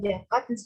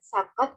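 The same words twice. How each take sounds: First: The word begins with an s sound. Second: The word begins with a j sound. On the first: "fonem Z diucapkan J atau S" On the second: "fonem Z diucapkan J atau S"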